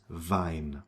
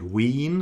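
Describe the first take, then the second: First: Wein said vine, ei as eye. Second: Wien with a long ee, veen; Wien contrast. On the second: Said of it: "That's not". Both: Shown as a demonstration.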